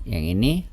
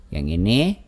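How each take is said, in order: The two takes are said the same way.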